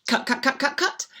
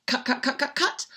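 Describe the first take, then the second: No difference in how they are said.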